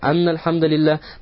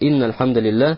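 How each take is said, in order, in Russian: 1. Первое слово начинается с гласной 'a'. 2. Первое слово начинается с гласной 'i'. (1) "ومن فتح قال" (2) "касрой"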